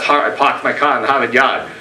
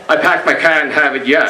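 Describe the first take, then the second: First: It is said in a middle-class Boston accent. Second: It is said in a lower-class Boston accent. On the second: "the lower classes would say"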